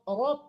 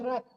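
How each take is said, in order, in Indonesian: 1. Bunyi r dan vokalnya tebal dan gelap. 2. Bunyi r dan vokalnya tipis dan terang. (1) "Qala rob rob" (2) "jangan rab ya"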